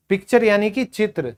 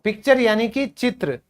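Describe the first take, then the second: No difference in how they are said.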